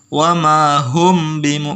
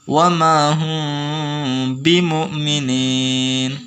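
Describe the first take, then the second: First: The m before b is short without nasal hum. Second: The m before b is held with a nasal hum. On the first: The speaker calls it wrong. "Jadi bukan dibaca wa ma hum bimu, bukan" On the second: The speaker calls it right. "Dibaca dengung"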